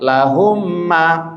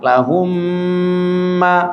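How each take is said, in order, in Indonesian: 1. Mim gandanya dibaca terlalu pendek. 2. Mim gandanya dibaca terlalu panjang. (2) "Jangan lama-lama. Lahumma, salah"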